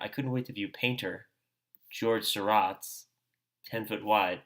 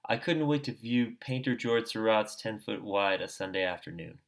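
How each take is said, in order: First: It is read with exaggerated pauses between phrases. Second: It is read straight through without pauses.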